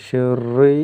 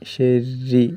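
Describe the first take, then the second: First: The r is said heavy and full-mouthed. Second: The r is said thin and light. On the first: The speaker calls it wrong. "ഷെറി എന്ന് ഓതരുത്" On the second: The speaker calls it right. "കസ്റുള്ള റാ ആയതിനാൽ"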